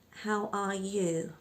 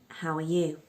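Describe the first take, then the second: First: The word 'are' is pronounced fully and separately. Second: The word 'are' is a schwa linked to 'how'. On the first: The speaker calls it wrong. "A lot of non-native speakers start with" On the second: The speaker calls it right. "We also link that little uh to the how"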